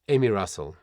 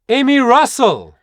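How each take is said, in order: First: The name is said at a lower, unchanged pitch. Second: The name is said at a higher, louder pitch. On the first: The speaker calls it wrong. "So not Emmy Russell" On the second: The speaker calls it right. "but Emmy Russell, right? Because the moment you go higher"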